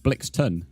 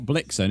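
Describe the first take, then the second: First: The name ends with a 'ton' sound. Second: The name ends with a plain 'en' sound. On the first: The speaker calls it right. "it's Blixton" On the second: The speaker calls it wrong. "Not Blixen"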